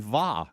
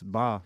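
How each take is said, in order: First: The syllable begins with a V sound. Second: The syllable begins with a B sound. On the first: The speaker calls it wrong. "I see it spelled V A. It's clearly va" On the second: The speaker calls it right. "no, no, it's ba"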